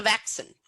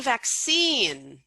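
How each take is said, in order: First: "vaccine" stressed on the first syllable, the second reduced; misplaced first-syllable stress. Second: "vaccine" with the second syllable stressed and drawn out. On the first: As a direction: punch the start of "vaccine" and swallow the end. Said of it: "Oh, he meant the vaccine". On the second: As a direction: lean long and hard on the end of "vaccine". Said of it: "he meant the vaccine, not the vaccine". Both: Shown as a demonstration.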